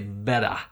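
It is said in an Australian accent. "an Australian would say better"

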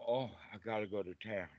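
It sounds unhappy and reluctant.

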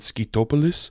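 It is said imitating a foreign accent.

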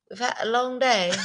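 It is said in a put-on British accent.

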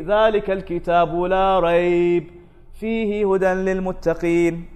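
The pause comes after la rayb, before fihi.

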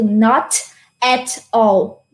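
The words are said separately with breaks.

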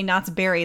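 The word Berry carries strong emphasis. This is how Californians say it. "They put an emphasis on the berry"

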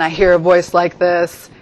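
The voice is pitched low. The speaker is the one in charge. "I hear a low register voice"

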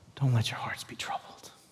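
It is said in a tender, comforting tone.

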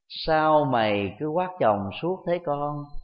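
The sentence is said in a gentle tone. It is a meaningful reminder. The speaker calls it right. "nếu chúng ta nói bằng một cái ngữ điệu nhẹ nhàng"

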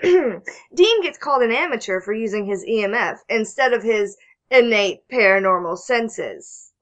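It is read in a sarcastic tone.

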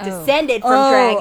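It is said in an ironic, air-quote tone. They only count as descendants in a loose, so-called sense. "big exaggerated air quotes around the second one"

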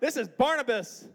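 It is said in a Midwestern American accent.

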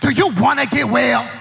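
It is said in an annoyed, attitude-filled tone.

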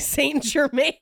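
The name is said with an American pronunciation. "you know how Texas pronounces French things"

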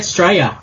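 The word is said with an Australian pronunciation. This is how locals say it. The speaker calls it right. "We say Australia"

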